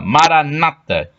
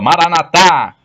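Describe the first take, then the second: First: The stress is on the second-to-last syllable. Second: The stress is on the last syllable. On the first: This is how Protestants say it. "Protestantes falam com a tônica na penúltima sílaba" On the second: This is how Catholics say it. "os católicos falam com a tônica na última sílaba"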